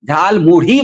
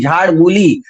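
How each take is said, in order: First: The words sound like 'jhaal mudhi', with a flapped 'dh'. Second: The words sound like 'jhaad mooli', with a long 'oo'. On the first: This is how people in Bengal say it. The speaker calls it right. "Bengal में झाड़ मूली नहीं बोला जाता, झाल मुढ़ी बोला जाता है" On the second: This is how an outsider says it. The speaker calls it wrong. "प्रधान जी बोलते हैं झाड़ मूली"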